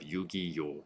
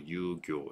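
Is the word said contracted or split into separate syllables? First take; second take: split; contracted. First: The syllables are split apart with an extra vowel. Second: The syllables run together in a contracted form. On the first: The speaker calls it wrong. "instead of Yugi-yo" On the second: The speaker calls it right. "contracted K sound"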